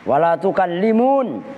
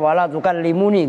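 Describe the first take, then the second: First: The last word ends in a bare n sound. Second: The last word ends in an extra ni syllable. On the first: "itu nunnya bukan nun nun nun nun apa?" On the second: "Itu nun asalnya"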